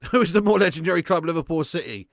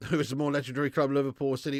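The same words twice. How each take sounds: First: Louder repeat. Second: Said in the usual way. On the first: Shown as a demonstration. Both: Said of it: "repeats the chat question louder".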